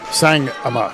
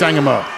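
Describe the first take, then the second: First: A clear pause splits the name in two. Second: The name is said smoothly without a pause. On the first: The speaker calls it wrong. "I put too much of a space in there" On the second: The speaker calls it right. "I know it's Sangama"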